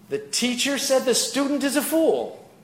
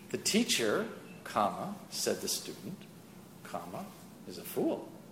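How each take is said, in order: First: It is said as one unbroken phrase. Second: It breaks after teacher and after student.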